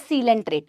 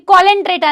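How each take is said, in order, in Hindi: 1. शब्द की शुरुआत 'see' ध्वनि से होती है। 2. शब्द की शुरुआत 'co' ध्वनि से होती है। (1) "ये सीलेंट्रेटा है" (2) "ये कॉलेंट्रेटा नहीं है"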